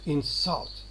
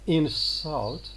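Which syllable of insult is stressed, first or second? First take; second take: second; first. First: The stress is on the second syllable. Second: The stress is on the first syllable. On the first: It is used as a verb. "the verb" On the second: It is used as a noun. "the noun"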